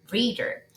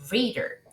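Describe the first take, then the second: First: The second vowel is reduced almost away. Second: The second vowel is reduced almost away.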